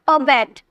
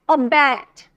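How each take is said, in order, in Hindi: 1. अंतिम अक्षर पर बल नहीं है। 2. अंतिम अक्षर पर बल है और उसे खींचकर बोला जाता है। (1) "ऐसे नहीं बोलेगा" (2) "स्ट्रेस दे रहे हैं"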